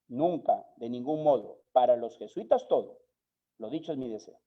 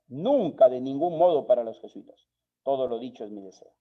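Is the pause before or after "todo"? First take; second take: after; before. First: There is a pause after "todo". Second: There is a pause before "todo".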